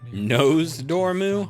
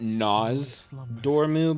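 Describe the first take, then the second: First: The first syllable sounds like 'nose'. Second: The first syllable sounds like 'noss'.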